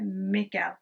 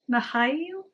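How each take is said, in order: First: The name is said with a British pronunciation. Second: The name is said with a Russian pronunciation. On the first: "which I guess is the British way of saying it" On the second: "because that's Russian"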